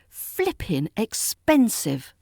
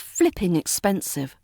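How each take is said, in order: First: The phrase is said slowly and drawn out. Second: The phrase is said at a normal pace.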